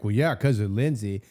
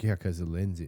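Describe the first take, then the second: First: It is said with firm conviction. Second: It is said muffled and meekly.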